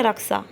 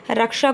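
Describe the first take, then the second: First: "रक्षा" with a plain s for ṣ, "raksa"; regional pronunciation. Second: Said in the usual way. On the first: Shown as a demonstration. Teacher showing Gorakhpur-side speech, "रक्षा" said as raksa. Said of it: "क्या कहेंगे". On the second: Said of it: "रक्षा को क्या कहेंगे".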